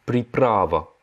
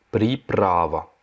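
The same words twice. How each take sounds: First: Slow, clear Russian приправа; teacher models приправа syllable by syllable; Russian word pripravа. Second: Приправа drawn out very slowly; slow repeat. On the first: Teacher models a vocabulary word for learners, slow and clear. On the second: Teacher repeats the word for French learners, very slowly. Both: Shown as a demonstration. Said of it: "c'est приправа".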